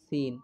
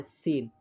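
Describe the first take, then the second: First: সিন said thin and light, the common wrong way; thin wrong sin. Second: সিন said with the proper Arabic s, not thinned; corrected সিন; correct sin. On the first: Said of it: "পাতলা করে বলে থাকি". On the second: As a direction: say সিন the correct way, firm and clear. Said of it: "উচ্চারণ হবে সিন". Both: Shown as a demonstration.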